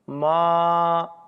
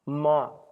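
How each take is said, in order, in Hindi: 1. स्वर बहुत ज़्यादा खींचकर बोला गया है। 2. स्वर बहुत थोड़ी देर तक बोला गया है। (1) "ये प्लुत है" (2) "ये ह्रस्व है"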